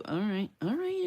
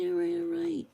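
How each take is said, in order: First: Said in the usual way. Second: Much higher, playfully giving in; mock-exasperated squeal. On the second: Real, not acted. Giving in to viewers who voted for wood, in a high squeak. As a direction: squeak it out, conceding the vote.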